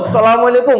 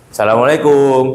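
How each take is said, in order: First: The greeting is said loudly and aggressively. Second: The greeting is said gently and politely.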